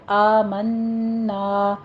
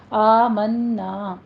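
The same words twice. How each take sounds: First: آمنا very slow, long nasal m and long a; ghunna and madd. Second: آمنا with a held nasal m and a long a; ghunna and madd. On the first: Teacher repeats آمنا slowly for practice. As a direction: stretch آمنا fully, hum the m. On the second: Teacher drills آمنا slowly. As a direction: hold the m of آمنا, then stretch the a. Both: Shown as a demonstration. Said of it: "غنہ واجبہ کر کے پھر الف مد".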